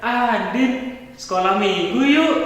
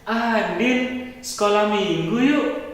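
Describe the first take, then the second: First: It is called out more loudly. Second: It is called out at normal volume.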